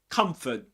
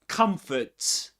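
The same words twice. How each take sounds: First: The final t is a glottal stop. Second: The final t is clearly released.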